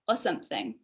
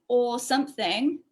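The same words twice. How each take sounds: First: The word 'for' is reduced to a weak schwa. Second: The word 'for' keeps its full vowel. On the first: "we get" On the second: "instead of"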